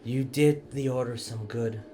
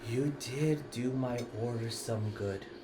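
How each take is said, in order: First: It is said louder in a plain voice. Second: It is said in a dramatic voice.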